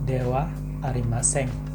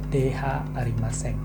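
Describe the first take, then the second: First: The particle is pronounced with a 'wa' sound. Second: The particle is pronounced with an 'ha' sound. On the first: The speaker calls it right. "kita mengucapkan dengan dewa" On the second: The speaker calls it wrong. "bukan dh Arimaseng"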